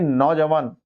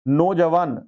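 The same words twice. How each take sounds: First: नौजवान with an open au, "nau-jawan"; correct pronunciation. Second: नौजवान with a plain o, "no-jawan"; wrong pronunciation. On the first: Teacher correcting for students, नौजवान pronounced with au. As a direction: open the first vowel of नौजवान to au. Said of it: "दो मात्राएं होंगी नौजवान में". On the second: Teacher reading the error to students, नौजवान mispronounced with o. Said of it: "नौजवान नहीं". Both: Shown as a demonstration.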